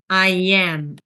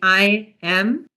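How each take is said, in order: First: A y sound links 'I' into 'am'. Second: The words are said without a linking y sound. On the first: The speaker calls it right. "we insert a y sound after the I" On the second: The speaker calls it wrong. "So instead of saying"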